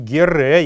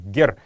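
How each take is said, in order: First: The word ends with an extra vowel sound. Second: The word ends on a consonant sound. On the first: The speaker calls it wrong. "Не «гере»" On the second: The speaker calls it right. "правильно произносить это слово «гер»"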